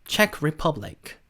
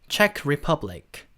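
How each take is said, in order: The two takes are said the same way.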